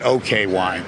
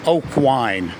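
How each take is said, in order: First: The first word is two syllables, like okay. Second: The first word is one syllable, like oak. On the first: This is how an English speaker would say it. "Only the Ukrainians don't say okay" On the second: This is how local people say it. "They say oak"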